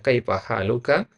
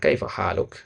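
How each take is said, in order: First: "haluka" ending with a clear final a; full final vowel. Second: "haluk" ending on the k, no final vowel; clipped final vowel. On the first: Teacher shows the full ending is allowed. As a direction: sound the last a of "haluka". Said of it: "boleh dibaca". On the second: Teacher shows the sukun ending is allowed too. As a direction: drop the vowel at the end of "haluk". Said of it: "boleh juga disukunkan". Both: Shown as a demonstration.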